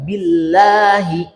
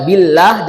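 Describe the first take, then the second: First: Light, thin "billahi"; correct light billahi. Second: "billah" said heavy and louder; wrong heavy billah. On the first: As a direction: say "billahi" lightly, not heavy. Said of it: "enggak, billahi". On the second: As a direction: model the mistake on "billah". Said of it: "jangan dibaca billah". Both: Shown as a demonstration.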